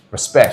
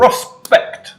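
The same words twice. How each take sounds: First: LEG catchphrase. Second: "Respect" shouted high and loud. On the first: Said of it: "L E G sayings". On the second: Asked to say it normally, shouting instead. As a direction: belt out "Respect". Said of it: "Just say "respect" normally". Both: Shown as a demonstration.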